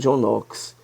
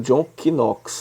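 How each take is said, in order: First: The name is said the usual spoken way. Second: The name is read just as it is spelled. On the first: The speaker calls it right. "Mas se pronuncia John Knox" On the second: The speaker calls it wrong. "está escrito John Knox"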